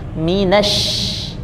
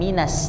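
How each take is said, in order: First: The word ends with an 'sh' sound. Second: The word ends with a plain 's' sound. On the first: The speaker calls it right. "tapi minash" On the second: The speaker calls it wrong. "bukan bukan minas"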